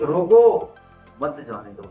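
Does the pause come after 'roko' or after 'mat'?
after roko. The pause comes after the word 'roko'. Stop them; do not let them go. "एक ही वाक्य दो means निकल रहे हैं"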